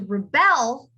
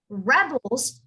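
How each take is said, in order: First: The stress is on the last syllable. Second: The stress is on the first syllable.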